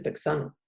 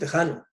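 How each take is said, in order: First: The middle consonant is pronounced ks. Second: The middle consonant is a harsh j sound. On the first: The speaker calls it wrong. "nadie dice texano" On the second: The speaker calls it right. "Por eso decimos tejano"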